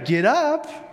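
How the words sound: It is said in a bright, cheerful tone. "Some of you used it in a very cheerful, positive way"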